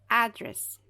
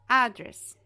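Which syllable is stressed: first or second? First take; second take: first; first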